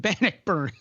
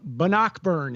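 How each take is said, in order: First: "Bannockburn" as BAN-uck-burn; correct BANNOCKBURN. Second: "Bannockburn" as buh-NOCK-burn; mispronounced BANNOCKBURN. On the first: Host gives the local form, "Bannockburn" stressed BAN-uck-burn. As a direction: stress the first syllable of "Bannockburn". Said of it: "instead of". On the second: Host recalls a newscaster's slip, "Bannockburn" stressed buh-NOCK-burn. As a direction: stress the second syllable of "Bannockburn". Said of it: "talking about Bannockburn instead of". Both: Shown as a demonstration.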